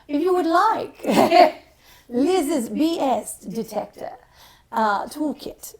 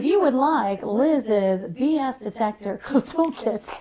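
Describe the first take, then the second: First: It is said in a put-on British accent. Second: It is said in the speaker's usual accent.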